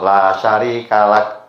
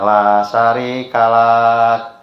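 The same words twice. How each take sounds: First: The final syllable is short, one beat. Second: The final syllable is drawn out long. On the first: The speaker calls it right. "pendek. Satu ketuk" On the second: The speaker calls it wrong. "Tadi bacanya la syarika lak"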